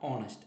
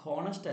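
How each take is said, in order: First: The word begins directly with a vowel. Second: The word begins with an h sound. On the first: The speaker calls it right. "Pronounce ചെയ്യപ്പെടുന്ന ഓ ശബ്ദമാണ്" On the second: The speaker calls it wrong. "ഹോണസ്റ്റ് അല്ല"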